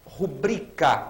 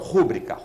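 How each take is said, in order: First: The stress is on the second syllable. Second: The stress is on the first syllable. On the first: The speaker calls it right. "paroxítonas" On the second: The speaker calls it wrong. "e não rúbrica"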